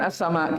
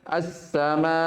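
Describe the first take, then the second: First: The long vowel is held for a moderate length. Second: The long vowel is held noticeably longer. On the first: The reading continues without stopping. "ketika dibaca wasol, dia dibaca berapa? Empat sampai lima" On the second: The reader stops at this word. "lebih panjang dari yang sebelumnya"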